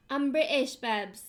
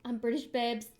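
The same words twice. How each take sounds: First: Louder, hammed-up British accent; badly faked British, punching the word British; terrible British accent. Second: Put-on first, restrained try at a British accent; lightly put-on British accent; bad British accent. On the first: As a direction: overdo a bad British accent. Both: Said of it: "That was terrible".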